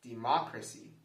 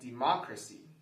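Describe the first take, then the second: First: The stress is on the second syllable. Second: The same.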